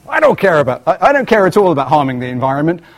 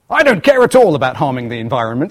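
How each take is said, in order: First: It is said in an exaggerated American accent. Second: It is said in the speaker's normal accent.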